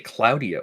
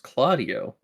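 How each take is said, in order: First: The first syllable sounds like 'cloud'. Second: The first syllable sounds like 'Claude'. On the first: The speaker calls it wrong. "When you say Claudio" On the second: The speaker calls it right. "it's Claudio. ... It's an A, not an O"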